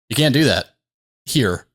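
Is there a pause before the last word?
yes. There is a dramatic pause before "here".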